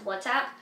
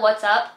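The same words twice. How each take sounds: First: The word ends with an 'app' sound. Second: The word ends with an 'up' sound. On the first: "But I think it's pronounced WhatsApp" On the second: "I call it WhatsApp. ... I'd rather say what's up"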